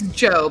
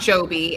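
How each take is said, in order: First: The surname is said as one syllable. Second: The surname is said as two syllables. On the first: The speaker calls it right. "it's Job" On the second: The speaker calls it wrong. "It's not Joby"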